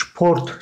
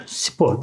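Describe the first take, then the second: First: "sport" said SHPORT; German pronunciation, shport. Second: Said in the usual way. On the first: Shown as a demonstration. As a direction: open "sport" with a sh sound. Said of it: "Onlar sport şeklinde söylüyorlar". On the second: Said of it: "Biz spor diyoruz".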